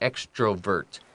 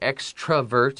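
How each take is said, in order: First: The middle vowel is a full O sound. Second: The middle vowel is reduced, like an A. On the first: This is the original, careful way of saying it. "slowly and properly the way it was originally written, it is extro with an O" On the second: This is how it is usually said in modern speech. "it often will sound like extravert"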